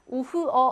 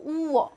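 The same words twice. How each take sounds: First: "우흐어" with "흐" sounded; H pronounced. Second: "우어" with a long U and no H; German "우어", H silent, U drawn out; silent H, long vowel. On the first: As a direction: say "우흐어" in three parts with an audible H. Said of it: "하지 않고". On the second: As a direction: stretch the "우" in "우어". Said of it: "이렇게 길게 만들어줍니다". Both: Shown as a demonstration.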